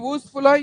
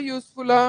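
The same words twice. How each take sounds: First: యూస్ఫులా begun with a pure "oo", no y-glide; యూస్ఫులా mispronounced with "oo" for "yoo"; wrong vowel onset. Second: Said in the usual way. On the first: Shown as a demonstration. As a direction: say యూస్ఫులా as "oosfula". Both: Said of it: "యూస్ఫుల్".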